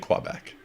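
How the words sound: It is said the English-speakers' way. The speaker calls it wrong. "Quebec Anglos say Quebec"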